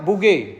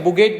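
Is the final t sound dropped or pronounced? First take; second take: dropped; pronounced. First: The word ends without a final t sound. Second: The word ends with a clear final t sound. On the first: "double टी ई को हम साइलेंट करके बोल रहे हैं" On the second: "बुगेट बोल दीजिए"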